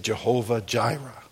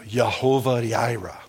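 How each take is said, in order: First: The name is said in an English way. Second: The name is said in a Hebrew way. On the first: The speaker calls it wrong. "You may say Jehovah Jireh. I used to say that" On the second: The speaker calls it right. "I heard some Hebrew guy say it"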